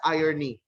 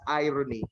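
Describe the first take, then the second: First: The word begins with the sound of 'iron'. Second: The word does not begin with 'iron'. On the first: The speaker calls it wrong. "Its root word is not iron. So it will not be read as irony" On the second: The speaker calls it right. "It really will be read as irony"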